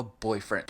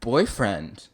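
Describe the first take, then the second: First: Said in the usual way. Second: Loud, startled echo of the word; taken aback. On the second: Real, not acted. Reader balking at the ogre boyfriend, taken aback. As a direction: blurt it back in disbelief.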